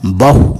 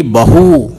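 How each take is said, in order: First: बहु with a short final ु; short final vowel. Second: बहू with a long, stressed final ू; long final vowel. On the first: Teacher reading the word for many, बहु with short ending. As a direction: keep the end of बहु brief. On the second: Teacher reading the word for son's wife, बहू with long ending. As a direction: stretch the end of बहू. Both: Shown as a demonstration. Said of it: "उसका वाचन मैं आपको".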